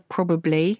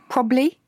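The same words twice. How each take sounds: First: Every syllable of the word is pronounced. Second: A syllable of the word is dropped.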